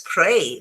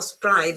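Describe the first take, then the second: First: The word is said rhyming with 'play'. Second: The word is said with an Italian-style vowel. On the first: The speaker calls it right. "but it's spray because, uh, well, you play and therefore you spray" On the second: The speaker calls it wrong. "I know in Italian you pronounce it spray, but in English, remember that uh, it's not it's not spray"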